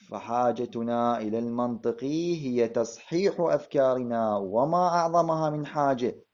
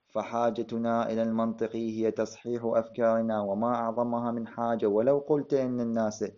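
First: It stops with a pause after حاجة. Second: It runs on without a pause after حاجة.

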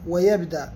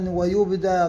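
First: The vowel on the ya is a. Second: The vowel on the ya is not a.

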